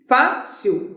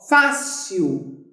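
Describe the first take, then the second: First: "Fácil" split as fá-cil, stressing fá; syllable by syllable. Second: Said in the usual way. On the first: Shown as a demonstration. Teacher showing why "Fácil" takes an accent, syllable by syllable. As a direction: say "Fácil" in two beats, fá, cil. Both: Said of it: "Por que que a palavra fácil".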